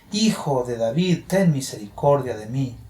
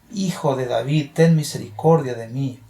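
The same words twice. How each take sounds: The two takes are said the same way.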